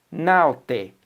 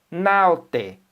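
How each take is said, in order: Both takes have the same delivery.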